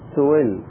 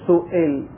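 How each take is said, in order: First: The hamza is weakened, softened toward silence. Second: The hamza is pronounced fully and strongly. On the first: "في حركة، ... بل حركة ضعيفة ينحى بها نحو الساكن" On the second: "يعني حركة قوية"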